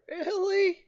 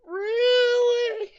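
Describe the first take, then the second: First: Very high, drawn-out whine; high plaintive protest; exasperated disbelief. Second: Piercing, stretched-out squeal; much higher, louder incredulous shriek; squealed disbelief. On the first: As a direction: squeak it out in disbelief. Game crashed, disbelief. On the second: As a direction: escalate to an outraged squeak. Repeats disbelief after crash. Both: Real, not acted.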